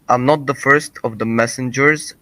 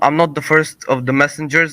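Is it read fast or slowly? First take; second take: slowly; fast. First: It is read slowly. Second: It is read fast.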